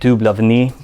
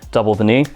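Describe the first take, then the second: First: It is said with a French pronunciation. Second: It is said with an English pronunciation. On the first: The speaker calls it right. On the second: The speaker calls it wrong.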